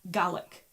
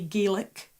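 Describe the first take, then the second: First: It is pronounced the way used for Scottish. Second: It is pronounced the way used for Irish. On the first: It refers to the Scottish language. "when you're talking about the Scottish one, it's Gaelic" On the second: It refers to the Irish language. "when you're talking about the Irish Goidelic language, you say Gaelic"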